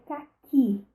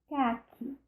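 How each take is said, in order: First: The stress is on the last syllable. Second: The stress is on the first syllable. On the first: It names the fruit. "a última sílaba é a mais forte" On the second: It names the color. "a primeira sílaba é a mais forte"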